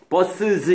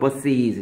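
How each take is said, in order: First: The ending has an 'uh'-like vowel before z. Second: The ending has an 'ee'-like vowel before z. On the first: The speaker calls it wrong. "이렇게 하지 않고" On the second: The speaker calls it right. "이렇게 되겠죠"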